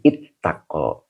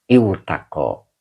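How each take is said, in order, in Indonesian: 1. Bunyi w hilang, dan t dibaca dobel. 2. Bunyi w ada sebelum t. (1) "cara bacanya hilang wawonya" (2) "bacaan aslinya ada wawonya"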